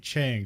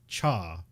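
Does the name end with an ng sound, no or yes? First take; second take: yes; no. First: The name ends with a final ng sound. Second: The name ends on the vowel without ng. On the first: "He doesn't say Chang" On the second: "he just calls him like Ch- Cha"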